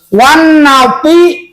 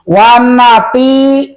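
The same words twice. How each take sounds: First: The t sound is heavy and emphatic. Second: The t sound is light and plain. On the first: The speaker calls it right. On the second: The speaker calls it wrong.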